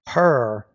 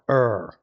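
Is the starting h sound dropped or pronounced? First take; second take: pronounced; dropped. First: The word begins with an audible h sound. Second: The word begins without any h sound. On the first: The speaker calls it right. "You want to make sure you're pronouncing the H there" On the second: The speaker calls it wrong. "not er"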